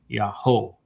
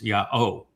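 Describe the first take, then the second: First: An h sound comes before the o sound. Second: No h sound comes before the o sound. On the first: The speaker calls it wrong. "so it's not yaho" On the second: The speaker calls it right. "it's yao, because the o sound comes from the wah"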